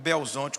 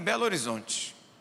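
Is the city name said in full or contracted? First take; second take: contracted; full. First: The city name is squeezed into fewer syllables. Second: The city name is said in full.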